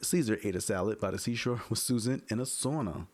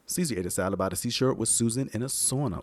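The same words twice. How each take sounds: First: The s sounds are softer and less piercing. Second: The s sounds are sharp and harsh. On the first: "if I go off to the side ... A little bit better there" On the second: "I can hear that ringing bells"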